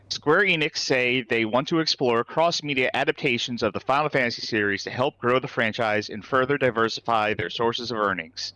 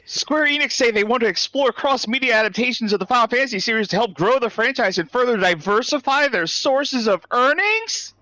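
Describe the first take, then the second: First: It is read in a flat tone. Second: It is read in an excited tone.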